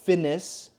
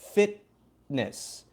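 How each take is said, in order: First: The middle t blends away into the next sound. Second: The middle t is held as a brief stop. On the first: The speaker calls it wrong. "Not finis, ... That one would blend" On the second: The speaker calls it right. "We have to stop"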